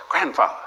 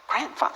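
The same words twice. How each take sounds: First: Said in the usual way. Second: Grandfather? rising sharply high in disbelief; Grandfather? as a shocked high question; incredulous question. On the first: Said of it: "She can't say grandfather". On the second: Retold or imitated. Daughter reacts to chosen name.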